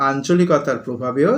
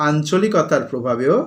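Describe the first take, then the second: Both takes have the same delivery.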